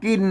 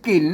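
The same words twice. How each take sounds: First: The word is said with the mid tone. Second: The word is said with the special tho tone. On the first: "เสียงจันว่ากิน" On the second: "เสียงโทเมืองโทพิเศษ"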